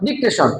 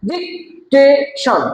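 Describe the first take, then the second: First: Said in the usual way. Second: ডিকটেশন slow and higher, DIC, TA, TION; three spaced beats on ডিকটেশন; broken into syllables. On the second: Shown as a demonstration. Teacher demonstrates to class, ডিকটেশন in three slow syllables. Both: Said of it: "তিনবারে".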